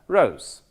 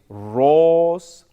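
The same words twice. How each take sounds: First: The vowel glides from o into oo. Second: The vowel is a plain o without a glide. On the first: The speaker calls it right. "You can say it is as rose" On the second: The speaker calls it wrong. "you don't want to say it is rose"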